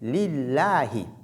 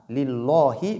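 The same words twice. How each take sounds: First: The L sound is light and thin. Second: The L sound is heavy and thick. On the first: The speaker calls it right. "est prononcée de façon légère" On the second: The speaker calls it wrong. "On ne dit pas lillahi"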